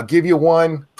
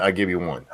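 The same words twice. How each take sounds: First: Louder, higher second go; finally granting the viewer a shout; name yell given. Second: Said in the usual way. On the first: Real, not acted. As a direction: give them the yell.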